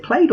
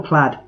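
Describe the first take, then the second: First: "plaid" with a long A, like played; "plaid" pronounced as played; rhymes with played. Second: "plaid" with a short A, as in lad; "plaid" pronounced like plad; rhymes with lad. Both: Shown as a demonstration. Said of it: "Is it plaid or plaid?".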